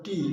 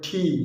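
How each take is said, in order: First: The t sound is plain, without a breath. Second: The t sound has a puff of breath. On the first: The speaker calls it wrong. "আগে আমরা শিখতাম টি" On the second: The speaker calls it right. "এখন কিন্তু এটাকে বলা হয় ঠি"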